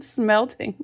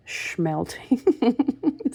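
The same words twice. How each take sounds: First: Smelting said with a clean s, laughing at the slip; Smelting with a plain s, fixing the word; Smelting with a plain s, light laugh of relief; corrected smelting. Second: Schmelting said with a sh sound, rising and puzzled; Schmelting with a sh start, unsure of the word; Schmelting with a sh start, testing how it sounds; mispronounced schmelting. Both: Real, not acted.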